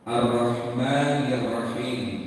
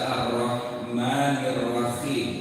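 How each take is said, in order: First: The h in Rahim is clean and breathy. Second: The h in Rahim is a rough throaty kh. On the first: The speaker calls it right. "Ha di sini artinya kan harus bersih, tidak ada yang mengganjal" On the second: The speaker calls it wrong. "Tapi dibaca ... Khim. Khim"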